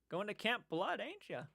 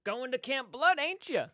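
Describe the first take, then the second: First: Put-on high, softer creepy old guy; quiet, creepy old barfly needling the campers; old-timer's sly warning, pitched up; Crazy Ralph. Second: Put-on high, loud crazy old doomsayer; loud, creepy old-timer warning; Crazy Ralph. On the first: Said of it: "I'd be that old guy". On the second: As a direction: call it out like a creepy slasher-film crank. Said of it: "I would be Crazy Ralph".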